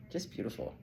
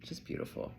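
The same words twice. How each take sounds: First: Said in the usual way. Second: Whispered. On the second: Real, not acted.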